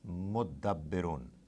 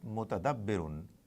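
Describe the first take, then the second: First: The t merges into a doubled d sound. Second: The t sound is heard before the d. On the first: "This ta gets attached to the. They merge and uh, they give the sound of two dals" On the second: "instead of mutadabbirun"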